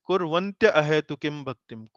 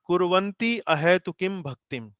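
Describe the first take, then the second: First: The first word ends in a gliding 'tya' sound. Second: The first word ends in a plain 'ti' sound. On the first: The speaker calls it right. "It is" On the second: The speaker calls it wrong. "it is not"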